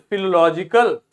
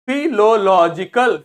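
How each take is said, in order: First: Said in the usual way. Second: फिलोलॉजिकल loud, slow, in separate syllables; pronunciation demo. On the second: Shown as a demonstration. Teacher showing learners the pronunciation, loud syllabic फिलोलॉजिकल. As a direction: break फिलोलॉजिकल into strong, slow parts. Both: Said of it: "pronunciation सीख लेते हैं".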